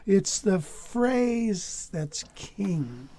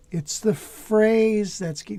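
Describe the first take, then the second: First: Very slow, each word drawn out; slow and deliberate. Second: Said in the usual way. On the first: Shown as a demonstration. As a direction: spell it out slowly for the student. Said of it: "S-, say it". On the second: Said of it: "say it with me".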